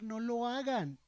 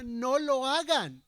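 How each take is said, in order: First: Said in the usual way. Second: No lo hagan pleaded louder and slow; earnest imploring plea; pleading. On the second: Retold or imitated. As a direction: beg them, drawing out No lo hagan. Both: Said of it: "Y les suplicaba".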